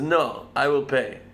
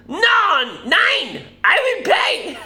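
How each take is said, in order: First: Put-on slow, tentative German accent; attempted German accent. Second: Very high, loud, hammed-up German accent; mock German accent. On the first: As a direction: try a slow, unconvincing German accent, unraised. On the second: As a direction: squawk it as an over-the-top outraged German. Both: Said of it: "Is that a German accent?".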